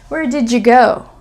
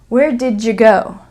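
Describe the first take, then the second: First: The d and y join into a j sound. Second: The d and y join into a j sound.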